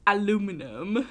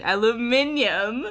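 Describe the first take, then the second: First: "Aluminum" with four syllables, a-LU-mi-num; American pronunciation. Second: "Aluminium" with five syllables, al-u-MIN-i-um; UK pronunciation. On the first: Switching to the American "Aluminum" after the British one. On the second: Trying out the British "Aluminium" against the American word. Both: Shown as a demonstration. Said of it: "I guess that is U K".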